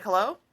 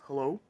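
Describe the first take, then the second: First: An impatient caller's hello; my louder hello. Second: A lower, questioning phone hello; a lightly voiced stranger answering the phone. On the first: Retold or imitated. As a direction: call "Hello?" back down the line, pushing. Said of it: "And I'm like". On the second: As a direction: imitate the restaurant worker picking up. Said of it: "someone answers and goes".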